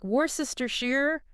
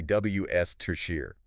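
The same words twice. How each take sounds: First: "Worcestershire" as wor-sess-ter-shire, all syllables; every letter sounded. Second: "W S Tertiary" as wuss-ter-sheer; correct pronunciation. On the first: Host showing how people try, every letter sounded. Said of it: "They try to sound out every letter". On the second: Co-host correcting the long version, correct pronunciation. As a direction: say "W S Tertiary" in three short syllables. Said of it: "But it's actually". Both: Shown as a demonstration.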